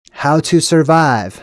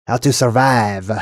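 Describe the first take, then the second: First: Said in the usual way. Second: Mock French accent, unhurried. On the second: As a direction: read it like a hammed-up Frenchman. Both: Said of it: "Now I get to do my French accent".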